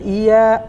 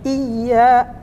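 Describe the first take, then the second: First: The y sound is short and light. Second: The y sound is pressed and doubled. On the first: The speaker calls it wrong. "Tidak iya" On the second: The speaker calls it right. "Berarti ditekan. ... tapi iya"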